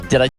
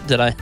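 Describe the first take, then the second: The two takes are said the same way.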